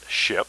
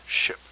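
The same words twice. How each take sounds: First: "ship," hit hard and loud with a full stop. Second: "ship." with the end dropping away; ship trailing off. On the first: Spirit's answer on the tape, wrong version, said loud and punched. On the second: Spirit's answer on the tape, right version, with the end trailing away. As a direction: let "ship." fall off at the end. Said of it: "kind of drops off the end". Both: Shown as a demonstration.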